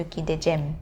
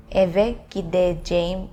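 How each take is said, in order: First: "gideceğim" cut down to "gidejem"; spoken short form. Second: "gideceğim" with a long "jeh-im" ending; careful, written-style "gideceğim"; full form. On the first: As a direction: shorten the end of "gideceğim" to "-jem". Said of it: "in a spoken language". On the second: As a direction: say every sound of "gideceğim". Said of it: "If you say gideceğim". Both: Shown as a demonstration.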